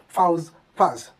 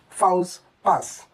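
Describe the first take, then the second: First: The final consonants are pronounced. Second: The final consonants are pronounced.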